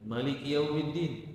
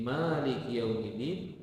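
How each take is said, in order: First: The first vowel of Maliki is short. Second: The first vowel of Maliki is long.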